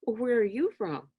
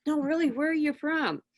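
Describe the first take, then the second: First: Said in the usual way. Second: "really" pushed higher and held as she asks again; stress on really. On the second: Retold or imitated. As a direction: lean on "really", higher and insistent.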